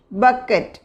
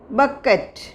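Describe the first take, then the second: No difference in how they are said.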